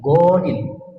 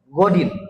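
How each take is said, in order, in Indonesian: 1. Vokal pertama dibaca panjang. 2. Vokal pertama dibaca pendek. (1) "yang salah dari penempatan niat tersebut adalah godin" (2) "Jadi tidak panjang"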